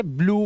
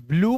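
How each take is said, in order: First: ब्लू with plain "oo", "bloo"; OO sound. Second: ब्लू with a y-glide, "blyoo"; YU sound. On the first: Teacher offers the first allowed reading of blue, OO sound. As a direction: say ब्लू without any y-glide. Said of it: "यूई का उच्चारण उ". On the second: Teacher offers the other allowed reading of blue, YU sound. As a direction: slip a "y" into ब्लू before the vowel. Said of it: "या यू". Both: Shown as a demonstration.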